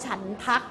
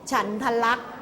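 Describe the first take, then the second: First: The word is said in a shortened form. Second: The word is said in its full form. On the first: The speaker calls it wrong. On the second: The speaker calls it right.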